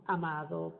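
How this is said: The d between the vowels is pronounced. "En México decimos amado"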